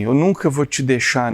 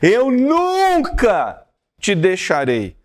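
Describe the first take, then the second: First: It is said plainly, without emphasis. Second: It is said forcefully, almost shouted.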